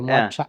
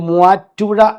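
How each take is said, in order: First: The name is clipped into a shorter local form. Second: The name is said in its full form. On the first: "നമ്മൾ അങ്ങനെ പറയില്ലേ" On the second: "മൂവാറ്റുപുഴ എന്ന് പറഞ്ഞാൽ"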